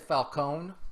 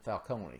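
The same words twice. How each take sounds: First: The name has an Americanized, Texan-style pronunciation. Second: The name has a non-Americanized pronunciation. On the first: This is how it was read before the film. "very Texan and American type of pronunciation of that" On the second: This is how it is said since the film. "ever since Batman Begins, it's been Falcone"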